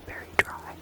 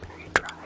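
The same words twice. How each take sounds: The two takes are said the same way.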